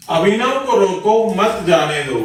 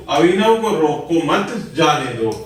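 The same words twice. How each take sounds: First: Brief break after रोको, then मत जाने दो together; group it as रोको, then मत जाने दो; pause after रोको. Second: रोको मत run together, brief break before जाने दो; group it as रोको मत, then जाने दो; pause after मत. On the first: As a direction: split the sentence just after रोको. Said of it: "अल्प विराम के सही जगह प्रयोग न होने". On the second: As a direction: split the sentence just after मत. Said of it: "वाक्य अलग-अलग अर्थ दे रहे हैं". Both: Shown as a demonstration.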